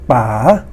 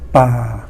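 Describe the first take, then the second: First: The pitch rises from low to high. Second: The pitch stays low throughout. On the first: Dad. "rising tone" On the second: The forest. "the low tone"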